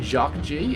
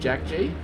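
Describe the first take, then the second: First: The first name is said like French 'Jacques'. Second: The first name is said like English 'Jack'. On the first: The speaker calls it wrong. "I started saying Jacques G instead of Jack G" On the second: The speaker calls it right. "somebody said it's like Jack G"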